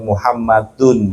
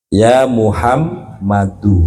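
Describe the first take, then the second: First: The name ends with an added n sound. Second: The name ends on a vowel without n. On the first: The speaker calls it wrong. "tidak boleh dibaca dengan tanwin Muhammadun, itu nggak boleh Pak" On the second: The speaker calls it right. "Ya Muhammadu, sebab dia kemasukan huruf nida"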